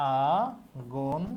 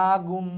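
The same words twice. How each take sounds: First: আগুন drawn out very slowly, syllable by syllable; slow spelling-out. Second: Said in the usual way. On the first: Shown as a demonstration. Teacher sounding out a word for spelling students, drawn out slowly. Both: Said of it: "এখানে ত আছে".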